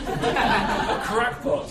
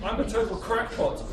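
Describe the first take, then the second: First: Very slow, high, louder laughing cackle; cackling. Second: Laughing through it, higher; gleeful self-mockery; cackling. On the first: Acted. Baron relishing his madness with a drawn-out high cackle. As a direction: stretch the word out in a mad cackle. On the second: Baron confessing to the writer, laughing higher. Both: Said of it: "he cackled".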